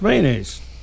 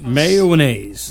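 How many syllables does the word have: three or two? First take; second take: two; three. First: The word is said with two syllables. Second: The word is said with three syllables. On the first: This is how people in the southeastern United States say it. "Two syllables" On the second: This is how people west of Indiana say it. "Three syllables"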